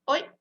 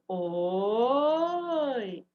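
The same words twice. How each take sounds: First: The word is said very briefly. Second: The word is drawn out for longer. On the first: "um som breve" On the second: "Um som mais longo"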